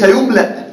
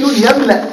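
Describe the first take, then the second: First: يملأ said yumla, u on the ya; يملأ read as passive yumla; rejected yumla. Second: يملأ said yamla, open a on the ya; يملأ read as yamla, not yumla; active yamla. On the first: Teacher to students, showing the wrong passive reading. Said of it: "وليس". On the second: Teacher to students, stressing the active verb reading. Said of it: "وليس يملأ". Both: Shown as a demonstration.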